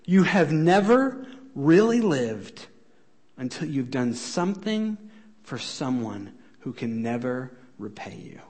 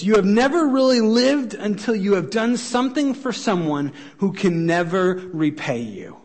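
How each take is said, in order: First: It is said slowly. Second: It is said at a normal pace.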